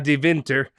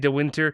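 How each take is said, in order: First: The W is pronounced like an English V. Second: The W is pronounced like an English W. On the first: The speaker calls it right. "I had to make sure I said that right" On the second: The speaker calls it wrong. "Otherwise, I was to say de Winter"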